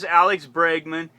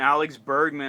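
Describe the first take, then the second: First: The name begins with the sounds 'breg'. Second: The name begins with the sounds 'berg'. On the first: The speaker calls it right. "it said Bregman, and I'm like, okay, Bregman" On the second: The speaker calls it wrong. "I keep mispronouncing. I'd call him Bergman"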